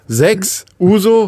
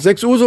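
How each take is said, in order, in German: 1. Die beiden Wörter sind durch eine Pause getrennt. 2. Die beiden Wörter gehen ohne Pause ineinander über. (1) "So wie er das betont hat" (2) "so nah aneinander sein, dass es als Satz erkennbar war"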